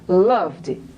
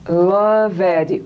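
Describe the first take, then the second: First: The ending is a bare d in one syllable. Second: The ending is a separate syllable, like 'love Ed'. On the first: It means past tense of love. The speaker calls it right. "Eu quero dizer loved" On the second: It sounds like loving someone named Ed. The speaker calls it wrong. "amo o ed"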